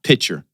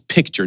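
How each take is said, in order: First: No k sound comes before the ch. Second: A clear k sound comes before the ch. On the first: The speaker calls it wrong. "not picture" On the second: The speaker calls it right. "it's picture"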